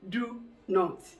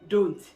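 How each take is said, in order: First: Both words are said fully and separately. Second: The words merge into one shortened syllable. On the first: This is the complete form used in formal situations. "The normal word to say is do not. That is the full expression" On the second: Some sounds are deleted in ordinary fluent speech. "It becomes don't"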